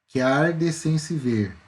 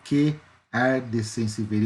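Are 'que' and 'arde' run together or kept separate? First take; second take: run together; separate. First: The vowels of 'que' and 'arde' run together. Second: The vowels of 'que' and 'arde' stay separate. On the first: The speaker calls it right. "eu junto" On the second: The speaker calls it wrong. "Eu não falo fogo que arde sem se ver"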